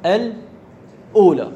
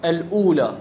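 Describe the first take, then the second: First: الأولى drawn out slowly and a bit louder; teacher sounding out الأولى for the class; slowly spelled out. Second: Said in the usual way. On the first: Shown as a demonstration. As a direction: stretch الأولى out so every sound is heard. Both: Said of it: "كلمة".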